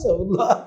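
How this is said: It is said carelessly while laughing.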